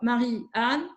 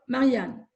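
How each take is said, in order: First: There is a pause between the two names. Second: There is no pause between the two names. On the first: The list names two separate friends, five in all. "soit Pierre a cinq amis" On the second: The list names one friend, three in all. "soit Pierre a trois amis"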